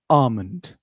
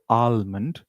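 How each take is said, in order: First: The L sound is silent in the word. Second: The L sound is pronounced in the word. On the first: The speaker calls it right. "say almond. L is silent" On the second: The speaker calls it wrong. "or almond"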